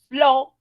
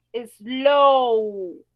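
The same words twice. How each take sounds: First: Slow clipped to a short vowel, loud. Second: Slow with a long, loud o sound; slow, long English o. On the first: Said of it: "esa sería una vocal corta". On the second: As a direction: stretch the o in slow like a long vowel. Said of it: "Cuando yo digo slow, ... el sonido de una O". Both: Shown as a demonstration.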